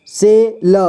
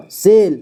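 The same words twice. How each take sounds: First: से ल as two separate sounds; syllable by syllable. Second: Said in the usual way. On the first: Shown as a demonstration. Teacher showing learners से ल, sounded out apart. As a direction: sound out से, then ल. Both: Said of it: "इसे पढ़ेंगे".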